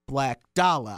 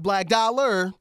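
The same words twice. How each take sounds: First: The word 'dollar' ends without an r sound. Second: The word 'dollar' ends with an r sound. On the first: The speaker calls it right. "I'm saying it the way you spell it, B-L-A-C-K-D-O-L-L-A" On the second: The speaker calls it wrong.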